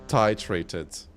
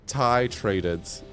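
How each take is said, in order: Both takes have the same delivery.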